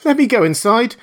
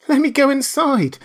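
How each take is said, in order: First: High, loud, tearful begging; frantic tearful plea; weeping, frightened plea. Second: High, loud frightened begging; terrified shriek, begging to hide; shrieking plea. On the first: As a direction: beg through panicked tears. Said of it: "staggering and weeping". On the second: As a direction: shriek to be let inside. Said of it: "shrieked aloud". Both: Acted.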